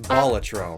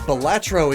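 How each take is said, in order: First: The word is given its Latin pronunciation. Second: The word is given its common everyday pronunciation. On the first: This is the original form of the word. "the Latin way of pronouncing the word is Balatro, so that is the proper way of saying it" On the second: This is how most people say it. "Balatro is more common"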